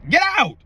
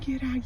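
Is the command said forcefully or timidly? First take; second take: forcefully; timidly. First: It is said loudly and forcefully. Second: It is said softly and hesitantly. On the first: The entities are made to leave. The speaker calls it right. "Like that" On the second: The entities will just laugh. The speaker calls it wrong. "oh no, get out, you, you kind of have to leave"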